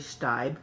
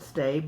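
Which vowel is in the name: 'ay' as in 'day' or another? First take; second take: another; ay. First: The name has a different vowel from 'day'. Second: The name has an 'ay' vowel, as in 'day'. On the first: The speaker calls it right. "but it's actually Steib" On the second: The speaker calls it wrong. "I mispronounced it Stabe"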